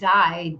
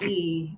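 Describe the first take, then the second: First: The vowel sounds like 'y' in 'my'. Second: The vowel sounds like 'ee' in 'see'. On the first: The speaker calls it wrong. "it's not die" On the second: The speaker calls it right. "D would be the way you pronounce the Germanic pronunciation"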